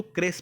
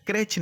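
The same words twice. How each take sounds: First: "क्रेच" said as "kres"; correct crèche pronunciation. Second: "क्रेच" said with a hard final ch; mistaken crèche pronunciation. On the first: Teacher telling students how to read it, "क्रेच" as "kres". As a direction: finish "क्रेच" with s instead of ch. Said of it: "इसको क्रेच पढ़ेंगे". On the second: Teacher showing the reading to avoid, "क्रेच" ending in ch. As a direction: say "क्रेच" as "kretch". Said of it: "क्रेच नहीं पढ़ेंगे". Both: Shown as a demonstration.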